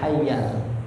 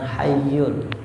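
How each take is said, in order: First: The last syllable has an 'a' vowel. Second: The last syllable has a 'u' vowel. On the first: The speaker calls it right. "Ingat dibacanya hayyal" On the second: The speaker calls it wrong. "bukan hayyul"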